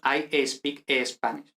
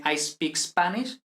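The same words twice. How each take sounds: First: Slow Spanish-accented "I espeak Espanish"; Spanish-accented English. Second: "speak Spanish" starting straight on the s; slow "I speak Spanish", each word opening on a clean s; no added E. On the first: Teacher imitating Spaniards speaking English, Spanish accent with an added e. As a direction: put a Spanish e before "speak" and "Spanish". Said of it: "Y metemos esa E". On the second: Teacher showing English as it should be, "speak Spanish" without a leading e. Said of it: "pues no decimos". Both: Shown as a demonstration.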